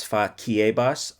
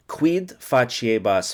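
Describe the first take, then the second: First: Faciebas with a hard "k" sound, fah-kee-AY-bahs; faciebas, classical hard c. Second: Faciebas with a soft "ch" sound, fah-chee-AY-bahs; faciebas, Italian-style soft c. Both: Shown as a demonstration. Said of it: "I don't know the pronunciation".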